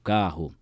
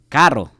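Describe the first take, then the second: First: The R is soft, not rolled, broadcaster style. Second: The R is strongly rolled, regional style. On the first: This is how people on TV or radio say it. "quando você via um cara falando na T V ou no rádio" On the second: This is how people from the region say it. "nós temos muito a negócio do R"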